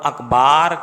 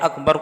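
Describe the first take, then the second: First: The vowel before the final r is long. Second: The vowel before the final r is short. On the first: The speaker calls it wrong. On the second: The speaker calls it right.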